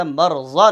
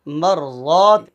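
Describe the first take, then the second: First: "مرضا" with a short final a; brisk, unstretched "مرضا"; wrong short vowel. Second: "مرضات" with a long held aa; slow, full "مرضات"; correct long vowel. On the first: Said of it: "نہیں ہے". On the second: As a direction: stretch the second syllable of "مرضات". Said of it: "مرضا نہیں ہے". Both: Shown as a demonstration.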